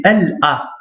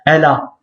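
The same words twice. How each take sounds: First: L and A said apart, no liaison; "L A" with a clean break before A; separated syllables. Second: "L A" run together as "ela"; "L A" as one joined word; wrongly linked syllables. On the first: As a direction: say "L A" as two detached sounds. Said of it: "séparément et sans liaison". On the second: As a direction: slide the L straight into A in "L A". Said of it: "beaucoup, ils vont dire". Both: Shown as a demonstration.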